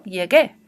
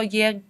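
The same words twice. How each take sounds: First: Teacher giving students the right form; correct pronunciation. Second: Llegué with the u sounded, as lleg-u-é; teacher showing students the mistaken form; wrong pronunciation. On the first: Teacher demonstrating llegué correctly with the u silent. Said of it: "sino que digo". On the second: Teacher demonstrating llegué wrongly with the u pronounced. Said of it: "Yo no digo". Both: Shown as a demonstration.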